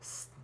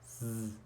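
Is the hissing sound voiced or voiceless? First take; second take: voiceless; voiced. First: The sound is a hiss without voice. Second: The sound is a buzz with voice. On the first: "it sounds like that. It doesn't vibrate" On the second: "when I add my voice"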